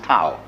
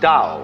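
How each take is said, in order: First: The word begins with a breathy t sound. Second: The word begins with a soft d-like sound. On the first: This would be the pronunciation if spelled with an apostrophe. "If it had an apostrophe after it, it would be pronounced Tao" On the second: This is how the word is actually pronounced. "That's pronounced Tao"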